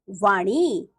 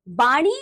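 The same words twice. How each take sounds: First: Said in the usual way. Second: "वाणी" with b for v, "baani"; wrong pronunciation. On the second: Shown as a demonstration. Teacher showing pupils the error, "वाणी" mispronounced as "baani". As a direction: open "वाणी" on a b. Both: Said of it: "अन्य अशुद्धियां कुछ".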